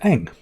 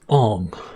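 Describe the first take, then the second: First: The name is said with an 'a' vowel. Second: The name is said with an 'o' vowel. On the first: This is how the original show says it. The speaker calls it right. "a young lad called Ang" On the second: This is how the film adaptation says it. The speaker calls it wrong. "he pronounced the characters as Ong. Right? Okay, that's a that's a bad sign"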